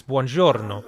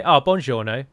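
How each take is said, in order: First: Buongiorno with Italian flair and rolled r; Italian accent. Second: Buongiorno with plain English sounds, louder; English-accented Italian. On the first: Non-native showing his closest buongiorno, Italian accent with flair. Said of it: "which is far more Italian sounding". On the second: Player mimics an English person greeting, English accent on buongiorno. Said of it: "They'd say it in English". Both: Shown as a demonstration.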